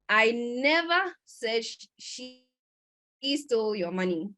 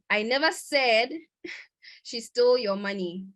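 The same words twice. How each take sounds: First: The stress is on the word never. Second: The stress is on the word said. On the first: The speaker did not ever say it. "this means that I didn't ever say it" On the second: The speaker may have implied it without saying it. "Maybe I implied it whilst I was speaking"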